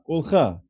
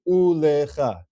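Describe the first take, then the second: First: It has two syllables, with no vowel after l. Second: It has three syllables, with a vowel after l. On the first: The speaker calls it right. "There's two syllables" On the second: The speaker calls it wrong. "If this were to be a sheva na, the way it would be read is"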